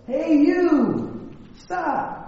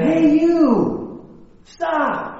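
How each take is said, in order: First: High echo of a yell, softening at the end. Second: High-pitched, sing-out call; boy hollering into the hills; yelling. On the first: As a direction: imitate a call bouncing back from the hills. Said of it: "And the voice says". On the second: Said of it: "the boy yells again". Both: Acted.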